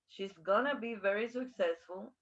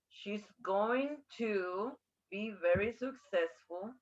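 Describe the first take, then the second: First: 'Going to' is reduced to 'gonna'. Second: 'Going to' is said in full.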